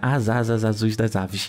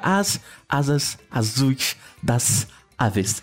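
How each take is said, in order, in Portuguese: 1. As palavras são ditas juntas, sem nenhuma pausa. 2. Pequenas pausas separam cada uma das palavras. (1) "E é assim que a gente fala naturalmente" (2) "E se eu fizesse uma pausa, vai soar muito mais antinatural"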